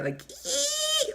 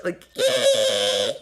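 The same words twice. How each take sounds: First: A piercing high squeal mocking the guest's voice; mock shriek. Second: A loud lower screech mocking the guest's voice; mock shriek. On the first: Host mocks the guest's accent with a high squeal. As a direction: squeal like nails on a chalkboard. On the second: Host mocks the guest's accent with a loud screech. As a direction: bray it out, loud and ugly. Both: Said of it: "like a shrieking sound".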